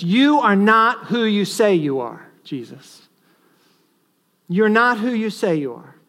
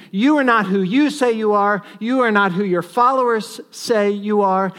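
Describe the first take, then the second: First: A hint of mocking contempt, louder; scornful taunt. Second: Louder, sharper mock contempt; scornful taunt. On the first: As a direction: taunt him lightly with scorn. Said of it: "an attack of scorn upon Jesus, which says". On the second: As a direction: throw the scorn at him harder. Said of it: "an attack of scorn".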